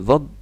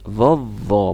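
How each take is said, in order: First: The consonant is cut off with an abrupt stop. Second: The consonant is held smoothly without stopping. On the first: The speaker calls it wrong. "bukan gitu" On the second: The speaker calls it right. "tapi vovo. Boleh dia ditahan"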